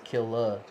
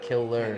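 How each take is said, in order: First: The name ends with an open 'ah' sound. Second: The name ends with an 'er' sound. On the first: The speaker calls it right. "it's [name]" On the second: The speaker calls it wrong. "not Killer"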